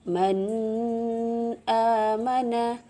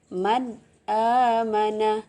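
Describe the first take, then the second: First: The n sound is blurred into the next vowel. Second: The n sound is pronounced clearly and distinctly. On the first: The speaker calls it wrong. "kita tidak boleh membaca" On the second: The speaker calls it right.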